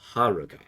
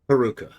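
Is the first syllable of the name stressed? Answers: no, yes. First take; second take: yes; no. First: The stress is on the first syllable. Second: The stress is not on the first syllable. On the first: The speaker calls it right. "It's on the beginning" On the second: The speaker calls it wrong. "I'm saying that wrong"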